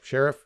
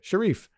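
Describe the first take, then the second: First: It is said as the ordinary word sheriff. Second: It is said like the name Sharif. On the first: It shows respect for his authority. The speaker calls it right. "it should be like sheriff, you know, like it should be more of like a salute" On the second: It diminishes his authority. The speaker calls it wrong. "you're also mispronouncing sheriff"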